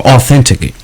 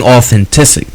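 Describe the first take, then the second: First: Said in the usual way. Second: "authentic" with an extra syllable, au-then-TIS-ic; mispronounced word. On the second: Real, not acted. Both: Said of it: "I can't even talk".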